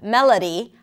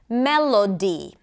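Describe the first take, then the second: First: The unstressed vowels are reduced to schwa. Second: The unstressed vowels are said as full vowels. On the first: "all had the same sound, the schwa sound" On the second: "they pronounce the vowel sound that is associated with a vowel letter"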